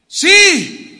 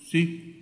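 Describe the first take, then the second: First: It is said very loudly. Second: It is said quietly, barely audible.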